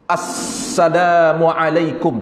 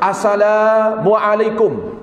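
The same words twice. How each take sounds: First: The doubled 's' sound is fully held. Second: The 's' sound is said short, not doubled. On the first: The speaker calls it right. "mesti mengucapkan ke semua diri dengan betul" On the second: The speaker calls it wrong. "bukan salam menurut syariat"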